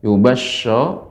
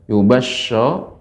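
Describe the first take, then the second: First: The consonant is a soft sh sound. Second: The same.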